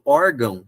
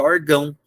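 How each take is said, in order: First: Órgão with an open ó, stressed first; órgão as a paroxytone; correct stress. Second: Orgão stressed at the end, or-GÃO; orgão as an oxytone; wrong stress. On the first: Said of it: "quando eu falo órgão". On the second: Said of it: "se eu não colocar acento". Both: Shown as a demonstration.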